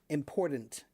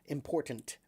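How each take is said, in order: First: The second T sounds almost like a soft D. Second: The second T is a clear, hard T. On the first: The speaker calls it wrong. "It's almost like a soft D" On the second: The speaker calls it right. "The last T is a hard T"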